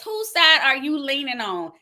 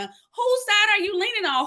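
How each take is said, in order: First: Said in the usual way. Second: Pitched-up preacher's repeat; higher emphatic repeat. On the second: Shown as a demonstration. Preacher repeating a viewer's question to the congregation, pitched higher and pressing.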